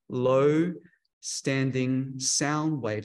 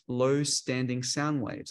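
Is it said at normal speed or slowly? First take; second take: slowly; normal. First: It is said slowly and deliberately. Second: It is said at normal speed.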